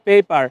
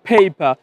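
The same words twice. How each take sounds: First: The first p has no puff of air. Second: The first p has a strong puff of air. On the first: The speaker calls it wrong. "Not" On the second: The speaker calls it right. "একটু ধাক্কা দিয়ে বলছি"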